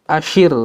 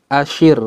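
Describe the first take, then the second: Both takes have the same delivery.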